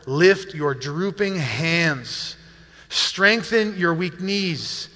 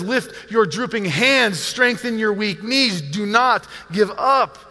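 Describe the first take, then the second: First: Slow, deliberate reading aloud; scripture reading. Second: Slow, emphatic preacher's appeal; urgent exhortation. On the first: Acted. Pastor reads the verse to the congregation, slow scripture reading. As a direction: read each phrase slowly and solemnly. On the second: Retold or imitated. Pastor voices the author urging weary people, urgent exhortation. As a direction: press each command home with urgency. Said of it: "you can hear the urgency in his voice".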